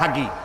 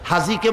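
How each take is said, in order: First: The middle consonant is a g sound. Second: The middle consonant is a j sound.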